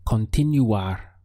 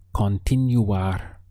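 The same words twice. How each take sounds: First: Said in the usual way. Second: Continuar said slowly, syllable by syllable, con-ti-nu-AR; slow model. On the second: Shown as a demonstration. Teacher slowing down Continuar so students can copy. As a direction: stretch Continuar out slowly for learners. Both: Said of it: "Our final verb is to continue".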